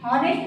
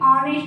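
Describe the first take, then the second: First: The word begins with an audible h sound. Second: The word begins with a vowel, no h. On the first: The speaker calls it wrong. "हॉनेस्ट ना बोल के" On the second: The speaker calls it right. "ऑनेस्ट बोलते हैं"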